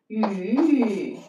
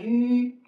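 First: The pitch dips low, then rises. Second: The pitch stays high and level. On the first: "三声的" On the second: "一声的"

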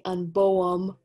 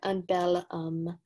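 First: Two vowel sounds meet with no L between. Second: An L sound links the two vowel sounds. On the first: The speaker calls it wrong. "I can't really say un beau homme. We need something to separate those two vowel sounds" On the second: The speaker calls it right. "So we have un bel homme"

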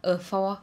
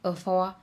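Both takes have the same delivery.

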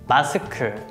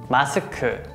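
First: It is said with Korean pronunciation. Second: It is said with Korean pronunciation.

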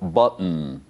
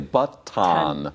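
First: The t before the ending is nearly silent. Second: The t before the ending is clearly pronounced. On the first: The speaker calls it right. "but a little button" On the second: The speaker calls it wrong. "We don't say button"

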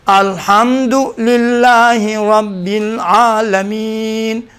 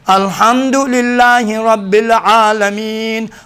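First: It is recited very slowly. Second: It is recited at a measured pace.

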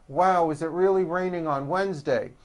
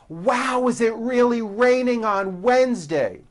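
First: Spoken with flat lips and little mouth movement. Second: Spoken with wide, open, active mouth movement. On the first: The speaker calls it wrong. "It wasn't with my lips flat" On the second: The speaker calls it right. "There was a lot of movement. My mouth opened wide"

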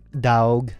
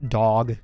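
First: It is said with a changed, different vowel. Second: It sounds like the ordinary word for a puppy. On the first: It is the stylized name spelling. The speaker calls it right. "It's like Daug" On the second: It refers to the animal. The speaker calls it wrong. "it's not like dog, as in like puppies"

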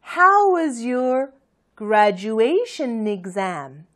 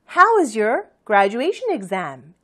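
First: It is said slowly in two parts. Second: It is said quickly in one flow. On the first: "두 부분 나눠서 천천히" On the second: "좀 빨리 하면"

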